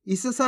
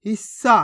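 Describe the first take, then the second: First: हिस्सा as hi-sa-saa; vowel after the first स in हिस्सा; full-letter misreading. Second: हिस्सा as his-saa; one long स in हिस्सा, no vowel; half-letter pronunciation. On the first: Teacher warns learners, हिस्सा with full सा. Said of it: "पूरा सा का उच्चारण हो जाएगा". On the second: Teacher answers how to read it, हिस्सा with half स. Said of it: "कैसे पढ़ेंगे". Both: Shown as a demonstration.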